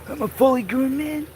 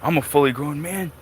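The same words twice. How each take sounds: First: It is said in a put-on imitating voice. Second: It is said in his ordinary speaking voice.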